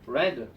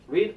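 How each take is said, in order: First: The vowel is short, sounding like 'red'. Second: The vowel is long, sounding like 'reed'. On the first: It is the past participle form. "과거 분사로 쓰였을 때는 철자는 똑같으나 발음은 다르죠" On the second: It is the base form. "삼 단 변화할 때도"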